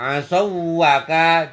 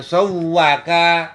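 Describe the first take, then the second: First: The two w sounds are kept separate. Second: The two w sounds merge into one doubled w. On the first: The speaker calls it wrong. "Tidak boleh begitu ya" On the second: The speaker calls it right. "Itu namanya diidghamkan"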